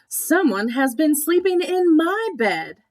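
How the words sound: It is said in a medium-sized voice.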